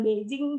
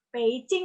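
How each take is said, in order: First: "Beijing" with voiced b and j; wrong reading. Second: "Beijing" corrected to pei-ching; Mandarin pronunciation. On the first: Quoting a friend's mistake, spelling pronunciation. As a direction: say "Beijing" as it is spelt. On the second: Correcting a friend's reading, Mandarin pronunciation. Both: Shown as a demonstration. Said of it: "bukan Beijing".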